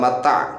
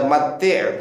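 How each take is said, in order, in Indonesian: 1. Kata ini berakhir dengan vokal a. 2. Kata ini berakhir dengan vokal i. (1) "bukan mata" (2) "Jadi itu dibaca mati'"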